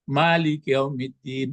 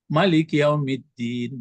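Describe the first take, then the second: First: The first vowel of Malik is long. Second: The first vowel of Malik is short. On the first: It is read as the active participle form. "Boleh dibaca panjang bisa bentuk isim fa'il" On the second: It is read as another word form. "bisa juga dibaca"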